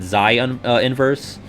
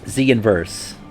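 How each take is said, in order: First: The first word sounds like 'Zion'. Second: The first word sounds like 'Zee'. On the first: The speaker calls it wrong. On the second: The speaker calls it right.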